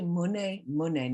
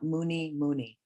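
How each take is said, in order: First: Each word ends with an 'eh' sound. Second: Each word ends with an 'ee' sound. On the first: The speaker calls it right. "it's more like an E on the end" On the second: The speaker calls it wrong. "not Muni Muni"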